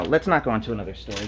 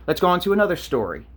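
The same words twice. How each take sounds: First: Quick, lower take that lifts on "not"; "let's not go on" said fast, low and quiet, rising on "not"; stress on not. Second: Said in the usual way. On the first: Shown as a demonstration. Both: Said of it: "Actually, no".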